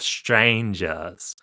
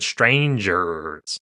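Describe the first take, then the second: First: The R before the final S is dropped. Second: The R before the final S is pronounced. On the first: "you hear that us sound" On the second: "rather than strangers"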